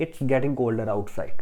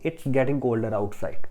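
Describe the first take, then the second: First: The words it is are shortened to its. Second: The same.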